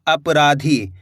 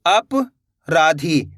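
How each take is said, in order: First: Said in the usual way. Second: अपराधी as अप, long pause, राधी; split in chunks. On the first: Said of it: "तो मिलके बन जाएगा". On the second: Shown as a demonstration. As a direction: break अपराधी into two slow pieces. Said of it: "दो-दो करके आपको पढ़ा देता". (अपराधी, अप के बाद रुककर)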